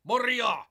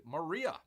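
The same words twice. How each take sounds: First: Much higher, much louder echo; mock-grand shout. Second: Said in the usual way. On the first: Host hamming up a film title, mock-grand shout. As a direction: belt the name out in mock grandeur.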